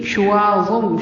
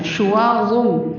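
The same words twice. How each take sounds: First: شُوَاظٌ with a crisp short ش; short sheen. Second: شُوَاظٌ with ش kept short; don't stretch the ش of شُوَاظٌ; crisp short ش in شُوَاظٌ; short sheen. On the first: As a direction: clip the ش of شُوَاظٌ. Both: Shown as a demonstration. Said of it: "شین کو لمبا نہیں کرنا".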